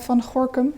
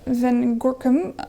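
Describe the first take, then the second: First: The name is said with Dutch pronunciation. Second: The name is said with English pronunciation. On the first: "in Dutch" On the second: "I'm trying to pronounce it in an English way"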